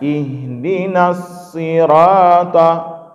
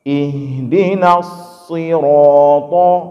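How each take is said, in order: First: The s, r and t sound light and thin. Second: The s, r and t sound heavy and thick. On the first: The speaker calls it wrong. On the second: The speaker calls it right. "Tiga-tiganya tebal"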